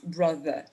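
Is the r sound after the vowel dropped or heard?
dropped. The final r sound is not pronounced. "And in British it's brother"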